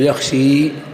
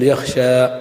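First: The final vowel is a full i sound. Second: The final vowel is a pure open a. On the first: "وليس بقلب الفتحة إلى كسرة فينقلب الألف إلى ياء فتقول يخشي" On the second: "ففيه إخلاص الألف والفتحة فتقول يخشى"

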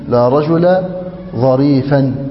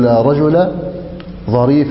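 First: The last word ends in a vowel plus n. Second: The last word ends in a short vowel, no n. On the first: The adjective follows the noun's grammatical position. "أن تصف الاسم باعتبار محله" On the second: The adjective follows the noun's surface form. "النصب بلا تنوين إذا كان على اللفظ الاسم فقط"

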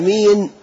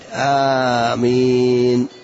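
First: The first vowel is short, without lengthening. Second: The first vowel is long and the m is single. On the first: It describes someone as trustworthy. The speaker calls it wrong. "لو قلنا أمين صار لها معنى ثاني" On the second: It is the prayer response amen. The speaker calls it right. "بالتخفيف مع المد آمين هكذا"

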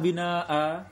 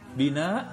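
First: The final vowel is held long. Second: The final vowel is short. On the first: The speaker calls it right. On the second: The speaker calls it wrong.

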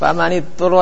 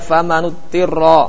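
First: The vowel right after faman is i. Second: The vowel right after faman is u. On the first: The speaker calls it right. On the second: The speaker calls it wrong.

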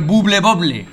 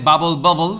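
First: The name is read with Spanish sounds. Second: The name is said with English sounds. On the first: It is the childhood pronunciation, before knowing English. "O el Buble Bobble" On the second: It is the pronunciation of someone who knows English. "En vez de"

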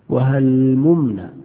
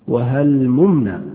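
Both takes have the same delivery.

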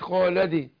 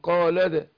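First: The bounce after the d sounds close to 'ee'. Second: The bounce after the d sounds close to 'a'. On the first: The speaker calls it wrong. "ما قلتش قال دي" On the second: The speaker calls it right. "والقلقلة هي قريبة للفتح"

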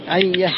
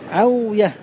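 First: The w becomes y and merges into doubled y. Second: The w sound is kept before the y. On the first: This is the form the rule predicts. "ما القياس؟" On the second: This is an irregular form used by some speakers. "ما شد فيه التصحيح"

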